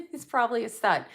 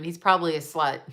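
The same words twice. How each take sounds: First: Laughing repeat. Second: Said in the usual way. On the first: Shown as a demonstration. Repeating the joke about her ex while laughing. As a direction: laugh it out as you say it again.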